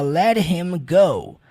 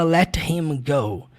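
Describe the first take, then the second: First: The T in let is light and soft. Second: The T in let is fully and crisply pronounced. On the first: The speaker calls it right. "é muito comum você ver o uso do T de modo mais leve. Então ele fala" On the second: The speaker calls it wrong. "Só que ele não fala let him go"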